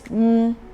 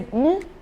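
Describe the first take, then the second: First: The syllable is said on a middle pitch. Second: The syllable is said on a high pitch. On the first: "The mid one is mm" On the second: "every system in your body have to stand up or maybe have to rise"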